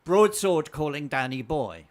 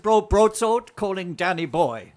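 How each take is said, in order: First: Loud, slow radio-style call; quoting a film call. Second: Louder, higher, slow film quote; insistent repeated call. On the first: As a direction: call it out slowly, savouring the famous line. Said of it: "So I said". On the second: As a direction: belt out the line for someone who missed it. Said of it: "I said". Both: Retold or imitated.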